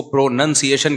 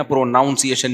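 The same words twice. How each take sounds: First: پروننسیشن with "nun" in the middle; correct pronunciation. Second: پروناؤنسیشن with "noun" in the middle; wrong pronunciation. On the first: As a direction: say پروننسیشن as "pro-nun-see-ay-shun". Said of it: "پروننسیشن کہیں گے نا". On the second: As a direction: say پروناؤنسیشن as "pro-noun-see-ay-shun". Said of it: "پروناؤنسیشن نہیں کہتے". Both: Shown as a demonstration.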